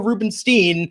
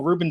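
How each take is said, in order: First: The name has an anglicized, Midwestern-style pronunciation. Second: The name has a Jewish, New York-style pronunciation. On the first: The speaker adapts to a Midwestern or Anglo listener. "If it's a little more Midwestern or Anglo, it's like, oh" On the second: The speaker signals shared background with a New Yorker. "If I'm talking to someone from New York... oh no"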